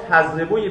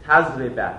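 First: تضربوی with "-u" before the linking "-ye"; teacher's model تضربوی, "tazribu-ye"; nominative ending. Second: تضرب ending in a clear "-a"; teacher's model تضرب, "tazriba"; accusative ending. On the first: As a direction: sound the "oo" in تضربوی. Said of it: "باز تضربوی بعدی". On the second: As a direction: drop lower, finish تضرب on open "a". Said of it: "اگه بخواد منصوب بشه". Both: Shown as a demonstration.

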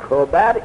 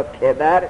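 First: کبر read "kobar", with an o; kobar, short o in the first syllable of کبر; first-vowel variant. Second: کبر read "kebar", with an e; kebar, short e in the first syllable of کبر; first-vowel variant. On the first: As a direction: say کبر with an o after the k: KO-bar. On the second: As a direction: say کبر with an e after the k: KE-bar. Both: Shown as a demonstration. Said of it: "کبر یا کبر".

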